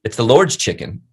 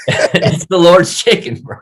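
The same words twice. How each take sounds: First: Said in the usual way. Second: Slow, high comic proclamation; silly exalting. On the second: Pretend. Podcast guest praising Chick-fil-A to his host, comically exalting. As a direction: stretch it out in a high put-on voice.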